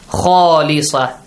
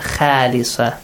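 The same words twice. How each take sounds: First: The first vowel is heavy, with a dark aw sound. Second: The first vowel is light, with a clear a sound. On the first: The speaker calls it right. "must be pronounced with an aw sound" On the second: The speaker calls it wrong.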